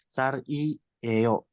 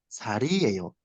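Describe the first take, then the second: First: The syllables are split apart with breaks. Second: The syllables run together without breaks. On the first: The speaker calls it wrong. "jangan sar i eyo gitu" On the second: The speaker calls it right. "jadi harus digabung"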